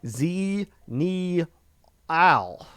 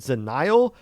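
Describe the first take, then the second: First: The letter Z is said, then the word Neal. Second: The name runs together as one three-syllable word. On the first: This is how the owner of the name gives it. The speaker calls it right. "I did look at their Twitter, and it does say Z Neal" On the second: This is how a reader would naturally guess it. The speaker calls it wrong. "If you're just reading it off the top of your head"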